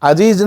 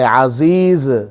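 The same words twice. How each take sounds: First: The middle consonant is a 'j' sound. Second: The middle consonant is a 'z' sound. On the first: The speaker calls it wrong. "बिल्कुल गलत है, अजीज नहीं है" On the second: The speaker calls it right. "अजीज जा है"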